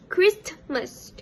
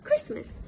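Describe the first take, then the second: First: The middle t sound is pronounced. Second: The middle t sound is dropped. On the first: "without the allergen" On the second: "the P sound was omit"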